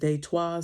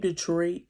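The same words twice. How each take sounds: First: It is said with a French-style pronunciation. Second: It is said with the usual English pronunciation. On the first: This is how it was said historically. "is really pronounced as Detroit" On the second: This is the familiar modern name. "the name Detroit"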